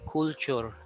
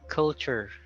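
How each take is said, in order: First: The first vowel is not a schwa. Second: The first vowel is a schwa sound. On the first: The speaker calls it wrong. "You don't say culture" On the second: The speaker calls it right. "It's cul, culture"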